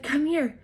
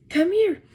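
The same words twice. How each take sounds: First: Higher, slightly raised voice; retold call. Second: Much higher, louder summons; retold second call. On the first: Husband calling his wife over, retold call. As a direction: imitate a first summons, pitched up. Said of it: "He said". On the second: Husband calling his wife over in the quake, insistent call. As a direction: imitate calling again, high and insistent. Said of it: "I heard his second call".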